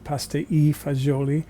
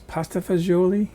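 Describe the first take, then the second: First: It is said the Italian way, with 'e' inserted. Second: It is said the usual American way, fagioli. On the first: This is how it is said in Italy. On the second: This is how the dish is known in this country.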